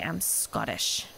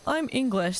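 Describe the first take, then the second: First: "I'm Scottish" lower and proud, with weight; with oomph. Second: Said in the usual way. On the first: Shown as a demonstration. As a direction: give "I'm Scottish" real pride, voiced lower. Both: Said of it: "doesn't have the same oomph to say".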